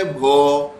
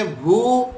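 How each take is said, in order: First: "بھو" slowly as "bho"; drawn-out "بھو", vowel as in "boat"; pesh as "o". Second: "بھو" slowly as "bhoo"; drawn-out "بھو", vowel as in "boot"; pesh as "oo". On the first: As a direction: say "بھو" with a long "o". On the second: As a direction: say "بھو" with a long "oo". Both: Shown as a demonstration. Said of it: "پیش ہی پڑھ رہا ہوں".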